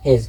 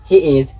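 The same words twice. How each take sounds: First: "his" as one short syllable; quick single-beat "his"; contracted he's. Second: "he is" as two separate words; full form. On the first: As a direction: merge he and is into "his". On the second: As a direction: say "he is" uncontracted. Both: Shown as a demonstration. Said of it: "he is his".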